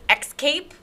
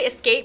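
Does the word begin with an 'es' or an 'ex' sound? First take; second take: ex; es. First: The word begins with an 'ex' sound. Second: The word begins with a plain 'es' sound. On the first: The speaker calls it wrong. "She says excape" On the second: The speaker calls it right. "she doesn't say escape"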